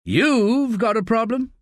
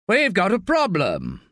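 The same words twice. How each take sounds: First: Higher, slow questioning rise on "You've"; slow, lifted disbelieving question; incredulous echo. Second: Pennington shaken, pressing the point hard; slow urgent alarm down the phone; unnerved. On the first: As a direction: throw the words back in disbelief. Staff echoes the boss, incredulous. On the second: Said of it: "he sounds unnerved". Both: A narrator's reading.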